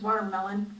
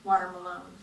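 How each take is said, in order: First: It is said as ordinary 'watermelon'. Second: It is said like the name 'Water Malone'. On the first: The speaker calls it right. "it's watermelon" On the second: The speaker calls it wrong. "not Water Malone"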